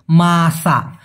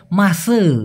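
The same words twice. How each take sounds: First: "মাসা" said clearly as masa, ending on an open a; careful Malay pronunciation. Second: "মাসে" said as mase, final a turned into e; colloquial Malaysian variant. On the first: Teacher models "মাসা" for learners, ending on a clear a. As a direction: model "মাসা" slowly with a final a for students to repeat. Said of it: "আমার সাথে একবার দরকার হয় উচ্চারণ করুন". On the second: Teacher shows learners how Malaysians say "মাসে", ending in e. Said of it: "এর মতো উচ্চারণ করে". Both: Shown as a demonstration.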